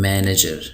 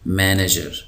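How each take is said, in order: No difference in how they are said.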